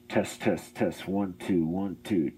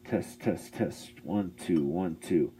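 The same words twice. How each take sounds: First: The voice sounds full, with all frequencies present. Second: The voice sounds muffled, with high frequencies removed. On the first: "It's back up to full unfiltered sound" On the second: "So that's cutting out all the high end that it can"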